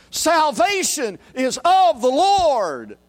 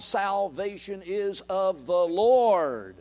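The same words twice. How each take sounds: First: Slow, much higher, louder shout; heavenly multitude shout. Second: Slow declaration. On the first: Retold or imitated. Multitude in heaven shouting in unison. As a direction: proclaim it like a crowd in heaven. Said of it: "shouted together in unison". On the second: Shown as a demonstration. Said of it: "closing restatement".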